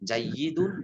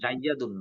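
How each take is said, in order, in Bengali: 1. দ্বিত্বযুক্ত y-এর পরের স্বরটি 'i'। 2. দ্বিত্বযুক্ত y-এর পরের স্বরটি 'a'।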